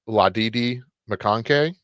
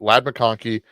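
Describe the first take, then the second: First: The name is stretched into extra comic syllables. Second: The name is said in its short ordinary form.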